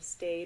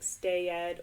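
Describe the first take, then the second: First: The ending is not said as a syllable. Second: The ending is said as an extra syllable. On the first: The speaker calls it right. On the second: The speaker calls it wrong.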